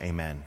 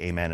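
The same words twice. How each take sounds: First: Said in the usual way. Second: Put-on amen with a light French accent; a mock French amen; a hint of French on amen. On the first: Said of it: "I wanted to shout". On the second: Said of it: "in a French accent".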